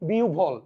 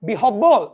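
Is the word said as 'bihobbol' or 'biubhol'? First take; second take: biubhol; bihobbol. First: The middle is sounded as u followed by bh. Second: The middle is sounded with h and doubled b. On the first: The speaker calls it right. "হয়ব যদি একসাথে থাকে উভ হয়ে যাবে" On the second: The speaker calls it wrong. "আরে না রে ভাই"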